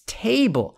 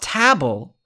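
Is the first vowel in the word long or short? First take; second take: long; short. First: The first vowel is long. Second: The first vowel is short. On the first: The speaker calls it right. "it's table. So because this is a long vowel sound" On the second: The speaker calls it wrong. "it's not table"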